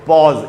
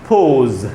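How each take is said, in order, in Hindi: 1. स्वर 'aw' जैसा सुनाई देता है। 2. स्वर 'oh' जैसा सुनाई देता है। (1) "पॉज एकदम गलत उच्चारण है दोस्तों" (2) "ये होता है पोज"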